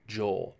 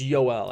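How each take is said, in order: First: The name begins with a J sound. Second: The name begins with a Y sound. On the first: The speaker calls it wrong. "It's not Joel" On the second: The speaker calls it right. "it's it's Yoel actually"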